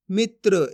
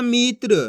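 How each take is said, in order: First: "मित्र" with a short, unstretched i; short vowel. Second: "मित्र" with the i drawn out long, as "meetr"; stretched vowel. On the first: Teacher modelling the right reading, "मित्र" with short i. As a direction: keep the i in "मित्र" brief, straight into tr. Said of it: "कम खींच के". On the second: Teacher showing how not to read, "मित्र" with long ee. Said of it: "ऐसे नहीं पढ़ना". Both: Shown as a demonstration.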